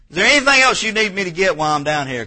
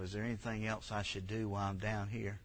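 First: Loud, high call asking what else is needed. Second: Much softer inner voice; thinking to yourself. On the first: Acted. Wife asking husband from downstairs, loud and high. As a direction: call it out across the house. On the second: Shown as a demonstration. Pastor shows the thought to have on your knees, softly. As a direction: say it quietly, as a private thought. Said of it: "Just think to yourself".

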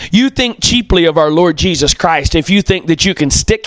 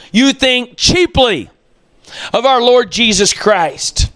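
First: Said in the usual way. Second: You think "cheaply" slowed right down, "cheaply" raised and leaned on; weighty, deliberate repeat with "cheaply" stressed. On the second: Real, not acted. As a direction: drag out "cheaply" so it lands hard. Repeats line slowly for emphasis.

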